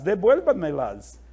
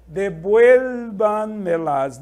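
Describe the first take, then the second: First: Said in the usual way. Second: Devuélvanmelas slow and louder, stress on VUEL; teacher demos the word; model pronunciation. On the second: Shown as a demonstration. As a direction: stretch devuélvanmelas out, VUEL hit. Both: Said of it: "aqui podemos dizer".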